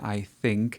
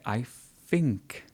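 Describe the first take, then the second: First: Think begins with a th sound. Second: Think begins with an f sound. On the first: The speaker calls it right. "rather than I think" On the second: The speaker calls it wrong. "it's this f sound"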